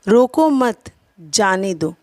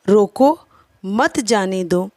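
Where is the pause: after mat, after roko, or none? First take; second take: after mat; after roko. First: There is a pause after the word mat. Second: There is a pause after the word roko. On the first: Do not stop them, let them go. "जाने के विषय में कहा जा रहा है" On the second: Stop them, do not let them go. "न जाने देने के विषय में कहा जा रहा है"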